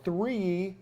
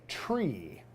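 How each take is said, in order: First: The word starts with a th sound. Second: The word starts with a t sound. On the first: This is the everyday way of saying the number. "For three" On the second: This is the way pilots say the number. "we say tree"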